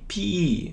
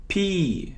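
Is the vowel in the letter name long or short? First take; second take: long; long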